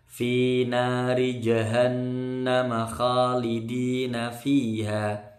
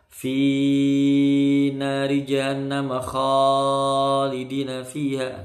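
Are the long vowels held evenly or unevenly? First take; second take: evenly; unevenly. First: Every long vowel is held for equal length. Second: One long vowel is held much longer than others. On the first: The speaker calls it right. "harus imbang" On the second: The speaker calls it wrong. "Contoh misalnya yang salah ya"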